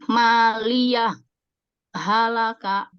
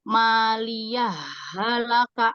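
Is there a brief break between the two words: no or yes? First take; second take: Yes; No. First: A brief stop, without breath, separates the words. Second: The words run together with the sounds merged. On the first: The first word's final sound stays distinct. "Saktah itu harus berhenti ... tanpa mengambil nafas ... harus dibaca jelas" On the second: The first word's final sound merges into the next. "kalau idgom dibacanya gitu karena dilebur"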